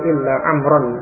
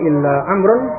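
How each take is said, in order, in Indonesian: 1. Kata terakhir berakhir dengan bunyi a. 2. Kata terakhir berakhir dengan bunyi u. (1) "Amrun mansub ya, dengan fathah" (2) "Dibaca dengan amrun dengan marfu, ini keliru"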